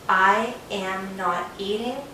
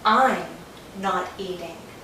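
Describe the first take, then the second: First: "I am" is said as two full words. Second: "I am" is joined into one short syllable. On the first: The speaker calls it wrong. "Americans do not say, I am not eating. It's slow and it's too many words" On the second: The speaker calls it right. "So I am becomes I'm"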